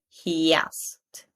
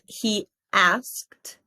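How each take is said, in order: First: The two words run together with a y sound. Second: The two words are separated by a pause. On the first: The speaker calls it right. "but he asked" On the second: The speaker calls it wrong. "Not he asked"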